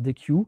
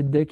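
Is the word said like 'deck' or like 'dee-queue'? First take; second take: dee-queue; deck. First: The word is said like 'dee-queue'. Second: The word is said like 'deck'. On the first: Some people say it this way. "Il y en a certains qui prononcent DEQ" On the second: This is the pronunciation the documentation gives. "il faut la prononcer DEC"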